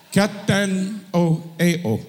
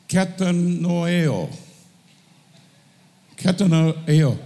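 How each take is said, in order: First: "Katanoeo" drawn out slowly, each syllable clear, with a little laugh; corrected Greek. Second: "katanoeo" said slowly, syllable by syllable; Greek word. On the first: Preacher repeating the corrected Greek for the teacher, slow and laughing. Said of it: "with the inflections in the correct". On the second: Preacher checking his Greek with the teacher, slow careful pronunciation. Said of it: "Greek teacher here". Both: Shown as a demonstration.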